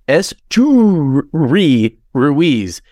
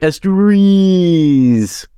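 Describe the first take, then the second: First: The two names are kept clearly separate. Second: The two names are run together into one. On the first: The speaker calls it right. "it says Esteyuri Ruiz" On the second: The speaker calls it wrong. "it all just runs together like Esteyuri's"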